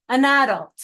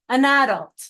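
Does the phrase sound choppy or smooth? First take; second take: smooth; smooth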